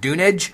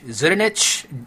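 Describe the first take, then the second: First: The name begins without a Z sound. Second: The name begins with a Z sound.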